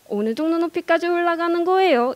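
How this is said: Pitch climbs, then falls at the end. "경상도 사람들은 올라가다가 마지막에 말끝을 내립니다"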